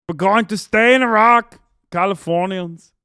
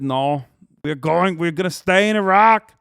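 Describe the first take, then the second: First: Put-on louder, higher Austrian accent, pushing "stay" hard; bellowing bad Austrian accent, slowing on "Californians"; over-the-top Austrian governor accent; Arnold impression. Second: Loud, slow Austrian bodybuilder accent, badly done; hammed-up Austrian accent rising on "Iraq"; clumsy Arnold Austrian accent, building louder; Arnold impression. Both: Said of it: "my Arnold impersonation is bad".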